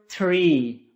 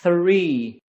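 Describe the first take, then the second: First: It begins with a t sound. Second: It begins with a th sound. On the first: The speaker calls it wrong. "It is never three. ... It is not t" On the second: The speaker calls it right. "It is th"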